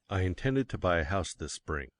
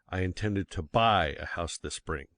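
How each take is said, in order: First: The stress is on the word I. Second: The stress is on the word buy.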